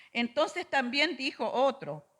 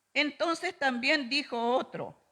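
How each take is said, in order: No difference in how they are said.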